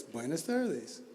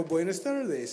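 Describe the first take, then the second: First: Put-on quiet, slow greeting from the old man; old man's reply. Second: Said in the usual way. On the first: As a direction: answer softly and unhurried, like the old stranger. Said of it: "He goes". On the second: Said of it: "I go".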